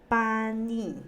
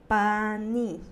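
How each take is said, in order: Both takes have the same delivery.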